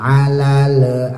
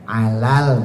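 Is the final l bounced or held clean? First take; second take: bounced; clean. First: The final l is bounced with an echo. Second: The final l is held clean without bounce. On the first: The speaker calls it wrong. "Jangan alal a" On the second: The speaker calls it right. "kan alal bersih"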